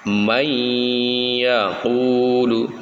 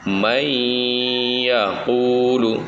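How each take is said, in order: No difference in how they are said.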